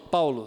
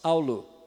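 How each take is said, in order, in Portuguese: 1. A palavra começa com um p simples. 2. A palavra começa com um clique labial.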